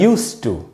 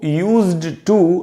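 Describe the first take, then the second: First: The word 'used' ends with a voiceless s-t sound. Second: The word 'used' ends with a voiced z-d sound. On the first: The speaker calls it right. "यू आधा स और ट" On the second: The speaker calls it wrong. "इसको यूज्ड टू नहीं पढ़ना चाहिए, वो गलत प्रोनाउंसिएशन है"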